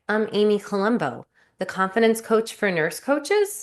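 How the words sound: It is said in an unsure, questioning tone. The speaker doubts their own identity. The speaker calls it wrong. "Where I'm almost like asking you a question as to my own identity"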